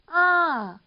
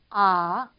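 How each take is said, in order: First: The pitch rises high and then falls. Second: The pitch dips low and then rises. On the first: "평성보다 올라갔다가 내려오는 이런 음" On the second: "밑으로 쳐졌다가 다시 올라가는 음이에요"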